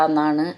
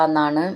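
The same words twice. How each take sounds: No difference in how they are said.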